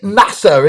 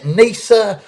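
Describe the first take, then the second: First: Nasa with a short open first vowel, "NASS-uh"; trying a pronunciation. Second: Nasa with a long AY, "NAY-suh"; alternative pronunciation. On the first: Host greeting a viewer by name, nasa said "NASS-uh". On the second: Host checking a viewer's name, nasa said "NAY-suh". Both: Real, not acted. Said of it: "how you pronounce it".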